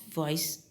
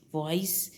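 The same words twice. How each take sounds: The two takes are said the same way.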